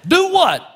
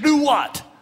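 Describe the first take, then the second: First: It is said in a hillbilly accent. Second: It is said in a plain, unmarked voice.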